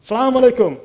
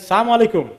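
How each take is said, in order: The two takes are said the same way.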